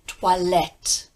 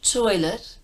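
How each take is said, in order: First: The first syllable has a 'wa' sound. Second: The first syllable has an 'oi' sound. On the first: The speaker calls it right. "O I sounds like wa" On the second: The speaker calls it wrong. "not toilet"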